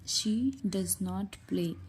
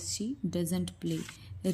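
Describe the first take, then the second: First: Does not is said as two full words. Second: Does not is contracted into one word, doesn't.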